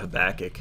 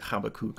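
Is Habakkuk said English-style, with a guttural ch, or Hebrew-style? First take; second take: English-style; guttural ch. First: The name is said with an English pronunciation. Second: The name is said with a guttural ch sound.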